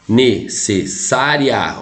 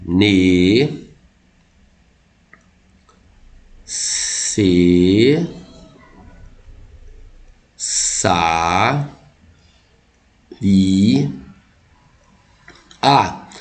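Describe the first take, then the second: First: Slow "Necessária", ending RIA kept as one syllable; split into four syllables. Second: "Ne, se, sa, ri, a" drawn out with long gaps, RI and A apart; syllable by syllable. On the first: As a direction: say "Necessária" in chunks, ne-ces-sá-ria. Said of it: "você separa ela assim". ("Necessária" silabada devagar, com "ria" junto, em ditongo) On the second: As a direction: sound out five separate syllables, "ri" split from "a". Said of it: "bancas que consideram assim". ("Ne, se, sa, ri, a" pausado, separando o hiato "ri, a") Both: Shown as a demonstration.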